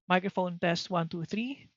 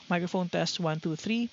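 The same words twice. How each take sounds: First: Noise cancellation is on, with the fan running. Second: Noise cancellation is off, with the fan running. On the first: "And then with noise cancellation turned on" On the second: "now going back to noise cancellation turned off"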